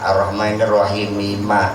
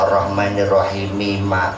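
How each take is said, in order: First: The final m is clearly pronounced with a vowel. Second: The final m is clearly pronounced with a vowel.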